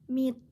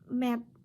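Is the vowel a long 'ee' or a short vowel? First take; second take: long; short. First: The vowel is a long 'ee' sound. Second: The vowel is a short, different sound. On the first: The speaker calls it right. "must be called E" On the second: The speaker calls it wrong.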